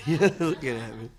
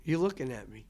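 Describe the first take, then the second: First: Laughing it out, louder; real laugh through the words. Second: Said in the usual way. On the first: Real, not acted. Answering the interviewer about revitalizing Mobilian, laughing. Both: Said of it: "Oh, no".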